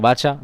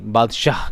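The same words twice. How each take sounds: First: बादशाह said as "bacha", the d and final h dropped, with a questioning rise; wrong pronunciation. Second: बादशाह said fully as "baad-shaah", clear d and a breathy final h; correct pronunciation. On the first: Teacher mimics a student's wrong बादशाह, mispronounced. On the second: Teacher corrects the student, saying बादशाह clearly and correctly. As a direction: say बादशाह carefully, sounding the final h. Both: Shown as a demonstration. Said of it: "नहीं, बादशाह।".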